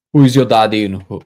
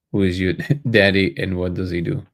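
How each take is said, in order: First: Put-on loud, botched Austrian accent; Arnold Schwarzenegger. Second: Said in the usual way. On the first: Streamer fumbles a film quote, loud mock Austrian accent. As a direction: belt out a failed attempt at an Austrian accent. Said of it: "no, that's not Arnold".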